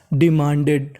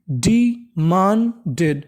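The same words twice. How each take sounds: First: Said in the usual way. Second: Slow syllable by syllable. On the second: Shown as a demonstration. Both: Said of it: "तो meaning बनी".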